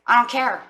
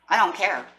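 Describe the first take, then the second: First: Louder, higher, flat refusal; firm mock-defiant "I don't care"; defiant declaration. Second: Said in the usual way. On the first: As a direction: slam the door on doubt. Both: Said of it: "this inner strength is gonna say".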